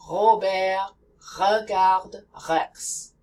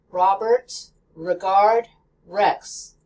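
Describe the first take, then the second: First: Robert, regarde, Rex with a throaty breathed French R. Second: Robert, regard, Rex with a clear American R. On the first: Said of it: "French R". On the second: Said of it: "The American R". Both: Shown as a demonstration.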